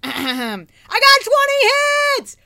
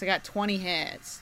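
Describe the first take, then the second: First: It is said with loud excitement. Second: It is said flatly, without excitement.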